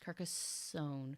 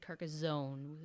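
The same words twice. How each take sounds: First: The middle consonant is an s sound. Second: The middle consonant is a z sound. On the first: The speaker calls it right. "It's Carcassonne" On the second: The speaker calls it wrong. "I said Carcassonne with the Z"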